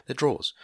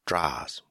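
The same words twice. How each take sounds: First: Said in the usual way. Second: DRAWERS as "drahs" in imitation Long Island accent; attempted Long Island accent. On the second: Shown as a demonstration. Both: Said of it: "can't quite do the Long Island accent".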